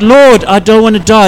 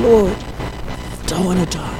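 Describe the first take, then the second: First: Crying out to God. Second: Much softer, slow and weak, almost gone; faint dying plea. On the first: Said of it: "And he cried out". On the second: Drowning man praying to God, faint slow plea. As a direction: breathe the plea out faintly, like he is barely alive. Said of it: "and he kept saying". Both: Retold or imitated.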